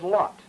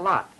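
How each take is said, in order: First: It has a rounded New England vowel. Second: It has an unrounded, non-New England vowel.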